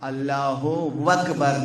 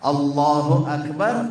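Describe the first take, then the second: First: A w sound is inserted before akbar. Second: Akbar starts directly with a vowel, no w. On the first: The speaker calls it wrong. "अल्लाहु वकबर ना कहे" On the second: The speaker calls it right. "अल्लाहु अकबर कहे"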